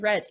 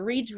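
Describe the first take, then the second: First: It has a short vowel, like red. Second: It has a long vowel, like reed. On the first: It is the past participle of the verb. "Muda só a pronúncia" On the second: It is the present form of the verb. "Muda só a pronúncia"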